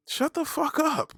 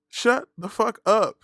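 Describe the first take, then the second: First: Slow, very high-pitched shut-down; exasperated. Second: Slow, loud, raised-pitch command; emphatic shut-down. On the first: Host silencing skinny critics, high drawn-out exasperation. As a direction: stretch it out high without shouting. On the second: Host silencing skinny critics, loud word-by-word emphasis. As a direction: punch each word apart, louder. Repeats it harder to same critic. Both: Acted.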